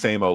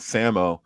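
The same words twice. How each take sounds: First: The name sounds like the phrase 'same old'. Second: The name does not sound like 'same old'. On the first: It plays on the greeting reply 'same old'. The speaker calls it right. "but it's Samo like how are you doing? Oh, Samo Samo" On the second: This is how people commonly say it. The speaker calls it wrong. "people pronounce it Samo"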